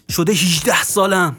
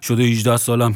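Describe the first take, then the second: First: It rises and falls, stressing the final word. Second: It is spoken flat, with no pitch movement. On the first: The speaker calls it right. "اگه بخوام بالا پایین بدیم، آخر کلمات" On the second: The speaker calls it wrong.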